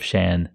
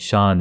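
First: The name is said with an English pronunciation. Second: The name is said with the Urdu pronunciation. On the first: It names the intended English name. The speaker calls it right. "instead of Shan" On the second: It names the Urdu word and the spice brand. The speaker calls it wrong. "I keep saying Shan"

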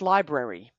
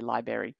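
First: The second R sound is clearly pronounced. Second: The second R sound is left out. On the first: The speaker calls it right. "The word is library. Right? There's another R in there" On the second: The speaker calls it wrong. "maybe you say library"

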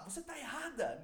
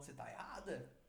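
First: It is said in a much louder tone. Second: It is said calmly, at a normal volume.

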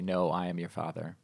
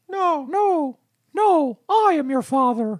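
First: It is said in his normal voice. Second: It is said in a Mickey Mouse voice.

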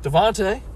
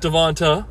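First: The name ends with a 'tay' sound. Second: The name ends with a 'tuh' sound. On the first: The speaker calls it wrong. "I thought his name was Devontae" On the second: The speaker calls it right. "It's Devonta"

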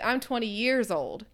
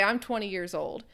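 First: The stress falls on years. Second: Years is not specially stressed.

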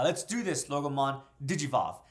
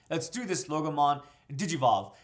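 First: It is read with a weaker, less forceful tone. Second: It is read with a stronger, more forceful tone.

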